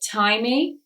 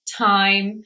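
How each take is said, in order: First: An extra vowel sound follows the final M. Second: The word ends on the M with no vowel. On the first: The speaker calls it wrong. "have you ever said that final E?" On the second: The speaker calls it right. "the E is silent at the end of these words"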